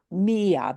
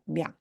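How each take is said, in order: First: "mia" as MEE-ah; "mia" drawn out with stressed i; two-syllable mia. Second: "mia" as a quick, low myah; "mia" glided, no stress on the i; one-syllable mia. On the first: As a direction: split "mia" and punch the i. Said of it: "not mia". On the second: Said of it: "all one syllable". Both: Shown as a demonstration.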